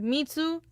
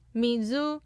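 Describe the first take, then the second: First: The middle consonant is a 'ts' sound. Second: The middle consonant is a 'z' sound. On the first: The speaker calls it wrong. "not mitsu" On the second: The speaker calls it right. "not mitsu, mizu"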